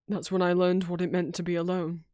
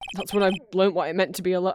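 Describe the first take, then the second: First: It is said in a somber, serious tone. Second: It is said in a light, casual tone.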